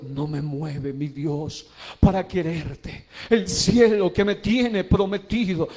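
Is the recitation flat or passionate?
passionate. It is recited with passion and expressive intonation. The words reach the audience's heart. The speaker calls it right.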